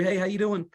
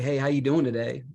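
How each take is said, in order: First: It is said hurriedly and in passing. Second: It is said unhurriedly and sincerely.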